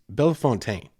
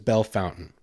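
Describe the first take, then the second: First: The name is said in a French way. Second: The name is said in an Americanized way. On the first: This is the original proper form. "It's Bellefontaine" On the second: This is how locals commonly say it. "Everyone says Bellefontaine"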